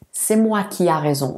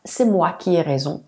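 First: "a" said as an open A; faulty example, "qui a" with an A vowel; incorrect form. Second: "ai" said as an E vowel; corrected form. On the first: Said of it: "خطأ". (exemple fautif, « a » prononcé A) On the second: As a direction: model "qui ai" with E, not A. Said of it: "صحيح". (exemple correct, « ai » prononcé È) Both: Shown as a demonstration.

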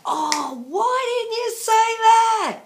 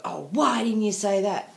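First: High, loud, drawn-out wail of regret; mock-wailing frustration at herself; exasperated self-scolding. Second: Said in the usual way. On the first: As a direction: berate yourself, stretching the last word way up. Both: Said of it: "walked away and thought".

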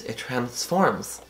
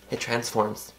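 First: Slow, drawn-out "it transforms" with a soft hush; dramatic emphasis. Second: Said in the usual way. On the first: Shown as a demonstration. Vlogger praising the blush on camera, slow hushed emphasis. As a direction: linger on "transforms" like a reveal.

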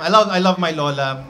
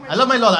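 First: Said in the usual way. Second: My punched high and loud; stress on my. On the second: Shown as a demonstration. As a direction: hit the word my.

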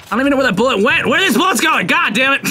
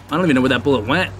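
First: High, rapid exasperated complaint; fed up with vanishing bullets; high-pitched comic frustration; exasperated outburst. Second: Said in the usual way. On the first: Real, not acted. Exasperated at repeated missed shots.

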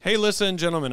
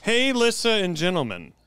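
First: High, loud, brisker letter opening; straighter greeting. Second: High, loud, stretched announcer opening; over-the-top greeting. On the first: Shown as a demonstration. Host redoing the letter's opening, straighter greeting. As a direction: open brightly without stretching the words. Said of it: "Just do one where it's like". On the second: Pretend. Host opening a listener letter, over-the-top greeting. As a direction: hail the crowd, drawing out each word. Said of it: "That's fucked up".

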